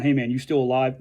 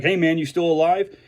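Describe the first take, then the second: First: Mean it, a real question of concern; serious. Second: Light teasing check-in among buddies; joking. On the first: Worried friend checking on a struggling vet, sincerely. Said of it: "They're, they're actually serious". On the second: Wrestling buddy teasing a friend, joking tone. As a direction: toss it off as a ribbing joke. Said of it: "we joke". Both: Retold or imitated.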